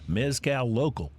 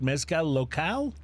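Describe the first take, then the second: First: It is said with an anglicized English pronunciation. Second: It is said with a Spanish-style pronunciation. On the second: "am I pronouncing it correctly?"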